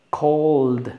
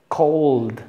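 No difference in how they are said.

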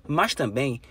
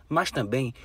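The two takes are said the same way.

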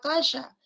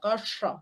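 First: The s is made at the hard palate. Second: The s is made with the tongue tip curled. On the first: "ese sería la S palatal" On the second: "Esta es una S retrofleja. La punta de la lengua se dobla"

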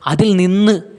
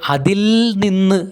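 First: The 'il' sound is short and said quickly. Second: The 'il' sound is drawn out with more force. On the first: The speaker calls it right. "ലകാരം ഹ്രസ്വമാണ്" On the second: The speaker calls it wrong. "അല്ലാതെ അതിൽ നിന്ന് എന്ന് പറയുന്നില്ല"

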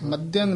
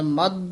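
First: The word ends with a nasal sound. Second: The word ends without a nasal sound. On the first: The speaker calls it wrong. "ਮਧਿਅੰ ਨਹੀਂ ਹੈ, ਇੱਥੇ ਟਿੱਪੀ ਨਹੀਂ ਹੈ" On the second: The speaker calls it right. "ਇਸ ਤਰ੍ਹਾਂ ਬੋਲਣਾ"

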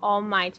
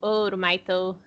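First: The name is said with English-style sounds. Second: The name is said with Japanese-style syllables. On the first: "os japoneses não falam All Might" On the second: "falam ouro, Maito"

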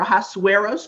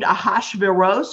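First: The name is given its Greek pronunciation. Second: The name is given its Hebrew pronunciation. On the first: "depending on whether you speak Hebrew or Greek" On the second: "depending on whether you speak Hebrew or Greek"

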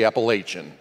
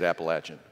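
First: It is said the Northern US way. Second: It is said the Southern US way.

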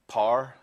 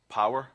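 First: Said in the speaker's own regional accent. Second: Said in the listeners' usual accent.

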